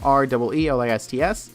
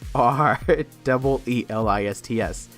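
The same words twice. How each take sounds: First: The letters are spelled out quickly. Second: The letters are spelled out slowly.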